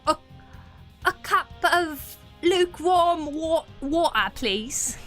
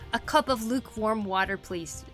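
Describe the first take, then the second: First: It is said in a put-on British accent. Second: It is said in the speaker's ordinary accent.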